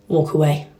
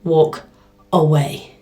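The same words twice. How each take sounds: First: Low, steady warning; calm firm command. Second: Low, steady and deliberate; calm firm command. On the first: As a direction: stare him down and say it flat. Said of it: "stared him straight in the face and went". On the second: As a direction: say it slowly like a final warning. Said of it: "I was like". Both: Retold or imitated.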